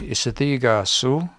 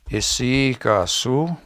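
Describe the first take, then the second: First: The consonant after isi is a th sound. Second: The consonant after isi is a y sound. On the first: "in T H they say" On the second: "we say"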